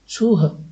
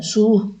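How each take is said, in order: First: The syllable ends with a breathy h sound. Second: The syllable ends on the plain vowel. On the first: The speaker calls it right. "अंदर ह आनी चाहिए" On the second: The speaker calls it wrong. "सु भर नहीं बोलना है"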